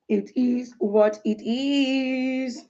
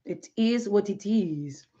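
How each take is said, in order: First: "It is what it is" stretched very slowly, each word drawn out. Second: Said in the usual way. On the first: Shown as a demonstration. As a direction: drag the words "It is what it is" out slowly and resignedly.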